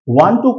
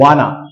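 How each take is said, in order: First: Both words are said fully and separately. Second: The two words are blended into one short word. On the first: The speaker calls it right. "आप इसको वांट टू ही बोलें" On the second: The speaker calls it wrong. "वाना भी बोला जाता है"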